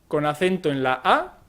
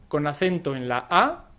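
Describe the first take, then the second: Both takes have the same delivery.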